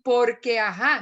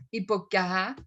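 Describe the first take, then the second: First: "Porque ajá" with the R clearly sounded; louder, careful "Porque", every sound kept; fully pronounced R. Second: "porque ajá" lower, said as "poqque ajá"; swallowed R. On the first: Teacher showing what cartageneros avoid, "Porque" with full R. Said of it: "Él no te va a decir". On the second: Teacher showing Cartagena speech, "porque" with the R swallowed. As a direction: drop the R in "porque", costeño style. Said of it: "se come el porque". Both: Shown as a demonstration.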